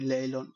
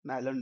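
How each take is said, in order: First: The word begins with an L sound. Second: The word begins with an N sound. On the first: This is how many ordinary Bengali speakers say it. "বাঙালিরা কই লেইলন" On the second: This is how the speaker's own group says it. "আমরা কই"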